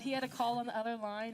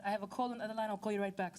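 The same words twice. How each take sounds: First: Said in the usual way. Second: Imitated Nigerian-accented caller; mock Nigerian accent on the phone. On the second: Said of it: "this is me in my best Nigerian accent".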